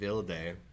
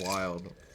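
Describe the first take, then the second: First: The word is said with a German pronunciation. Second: The word is said with an English pronunciation. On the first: "she pronounced it Wilde" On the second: "instead of wild"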